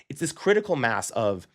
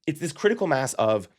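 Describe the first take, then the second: No difference in how they are said.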